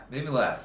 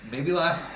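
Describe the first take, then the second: First: Said in the usual way. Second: Rising question. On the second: Shown as a demonstration.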